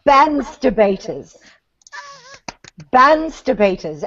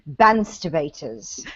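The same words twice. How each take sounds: First: Bansterbaters in a light British accent, drawn out. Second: Slow, low, posh-sounding British Bansterbaters; British accent. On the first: Shown as a demonstration. Asked to say it again, light British Bansterbaters. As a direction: repeat Bansterbaters with a British lilt. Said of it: "Say it again". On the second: Retold or imitated. Practising the accent, slow low British Bansterbaters. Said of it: "I would be going".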